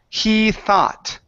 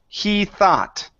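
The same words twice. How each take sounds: Both takes have the same delivery.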